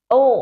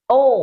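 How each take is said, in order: No difference in how they are said.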